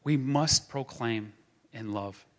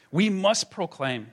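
First: Slow and lower, softened into tenderness; gentle restatement. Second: Slow, louder and higher, each word planted; rally the room with it; firm proclamation. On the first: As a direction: ease it down, let love carry it. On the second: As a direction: declare it like a rallying cry. Preacher's rallying call. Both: Acted.

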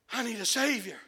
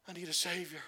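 First: Shouted plea. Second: Hushed plea. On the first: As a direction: cry it out at full force. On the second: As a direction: let it fall to a near hush. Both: Acted.

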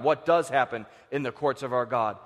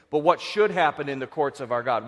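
First: "does" leaned on as the key word; stress on does. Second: "should" leaned on as the key word; stress on should. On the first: Preacher corrects the question about God's courts, stress on "does". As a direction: put the weight on "does". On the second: Preacher asks congregation about God's courts, stress on "should". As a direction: put the weight on "should". Should set against does. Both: Real, not acted.

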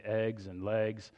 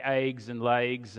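First: Eggs and legs with short "eh" vowels; accent-free pronunciation. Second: Eggs and legs with Southern long vowels, "aygs and laygs"; Oklahoma-Texas accent. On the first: Pastor showing what his dad made him say, eggs and legs with short standard vowels. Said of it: "he made me say". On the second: Pastor showing his childhood speech, eggs and legs in an Oklahoma-Texas accent. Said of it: "drive the accent out of us". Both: Shown as a demonstration.

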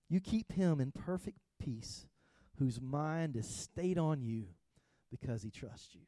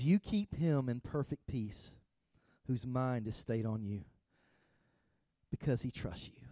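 First: Slow soft reread. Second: Said in the usual way. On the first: Shown as a demonstration. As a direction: read "You keep him in perfect peace" again slower and softer, fading out on "because he trusts you". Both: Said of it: "It says".

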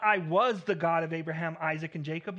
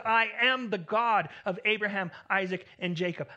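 First: "was" set up as the wrong word against "am"; stress on was, the wrong version. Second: "am" pressed, louder and firmer; stress on am. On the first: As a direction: say "I was the God" as the rejected reading. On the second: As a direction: lean hard on "am" in "I am the God". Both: Shown as a demonstration.

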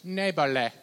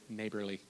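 First: Playful best-attempt Australian accent; put-on Aussie accent, louder. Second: Said in the usual way. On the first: Shown as a demonstration. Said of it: "Australian accent". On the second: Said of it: "Now say it in your best".

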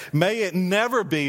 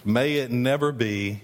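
First: "never" in "May it never be" punched, falling hard at the end; emphatic never. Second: Said in the usual way. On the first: Shown as a demonstration. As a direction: hit "never" with emphatic weight. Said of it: "he always puts that emphatic". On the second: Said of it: "puts that emphatic".

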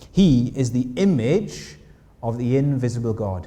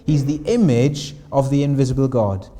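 First: Slow, deliberate reading of the verse; slow scripture reading. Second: Said in the usual way. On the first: Shown as a demonstration. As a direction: read each word of the verse slowly, letting it land. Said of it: "we're told this". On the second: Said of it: "The first thing".

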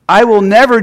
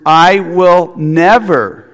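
First: "I will never" said higher and louder, rising on never; emphatic never. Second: "I will never" spoken very slowly, each word weighted; stress on I WILL NEVER. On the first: Preacher stressing the double negative to the congregation, emphatic. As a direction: lift and punch "never" as a promise. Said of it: "It's a double negative". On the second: Preacher underlining Jesus' promise to the church, slow and weighty. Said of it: "we need to underline the words". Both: Shown as a demonstration.

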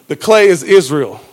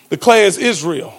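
The two takes are said the same way.

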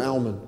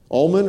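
First: "almond" said with a short A as in pal; second pronunciation option. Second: "Almond" said with an AWL vowel and a sounded L; first pronunciation option. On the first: Preacher checks the word with congregation, "almond" as AL-mund. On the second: Preacher checks the word with congregation, "Almond" as AWL-mund. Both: Shown as a demonstration. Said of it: "Almond or almond?".

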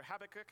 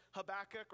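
First: Habakkuk with the stress on the first syllable, HAB-uh-kuk; pronunciation variant. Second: Habakkuk with the stress on the second syllable, huh-BACK-uk; pronunciation variant. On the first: Preacher offers another pronunciation, Habakkuk stressed on HAB. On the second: Preacher offers a choice of pronunciations, Habakkuk stressed on BACK. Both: Shown as a demonstration. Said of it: "however you wanna say it".

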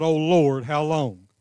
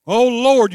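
First: Said in the usual way. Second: Loud cry. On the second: Shown as a demonstration. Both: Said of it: "Cry out".

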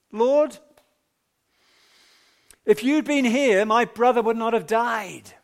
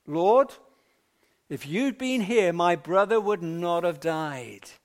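First: Raised, higher voice, pleading and hurt; a grieving sister's loud lament; anguished cry. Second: Said in the usual way. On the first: Acted. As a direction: cry it out to the Lord as grieving Martha. Martha's grieving reproach to Jesus.

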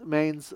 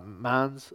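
First: Mainz with a long "ay", like "maynz"; English-style pronunciation. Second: Mainz with an open "ah", like "mahnz"; open-vowel pronunciation. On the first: Lecturer unsure of a city name, Mainz said as "maynz". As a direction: say Mainz to rhyme with "pains". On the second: Lecturer correcting a city name, Mainz said as "mahnz". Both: Real, not acted.

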